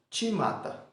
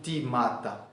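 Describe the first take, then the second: First: The word starts with a ch sound. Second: The word starts with a plain t sound. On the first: The speaker calls it right. "Eu vou imaginar um T na frente do C H" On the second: The speaker calls it wrong. "eu não vou falar o timata"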